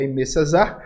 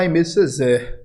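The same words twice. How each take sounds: First: The surname is said like César. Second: The surname is not said like César. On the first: This is how others say it is really said. The speaker calls it right. "já me falaram que a pronúncia correta é César" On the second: This is how the speaker used to say it. The speaker calls it wrong. "eu chamava Aimé Césaire"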